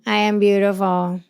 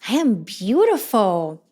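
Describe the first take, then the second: First: It is said flatly, without feeling. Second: It is said with strong, warm emotion.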